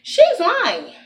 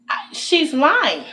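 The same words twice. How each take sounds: First: Higher "she's lying" with a laugh; laughing accusation. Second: Drawn-out, slow "she's lying"; slow, deliberate accusation. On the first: Telling viewers again, laughing, pitched higher. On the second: Venting to viewers, slowly stating the supervisor is lying. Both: Real, not acted. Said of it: "Now I'm self telling them".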